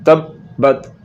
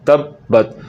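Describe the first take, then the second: The two takes are said the same way.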